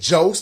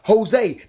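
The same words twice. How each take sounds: First: The name begins with an English J sound. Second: The name begins with an H sound. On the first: The speaker calls it wrong. "They don't say Jose" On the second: The speaker calls it right. "They say Jose"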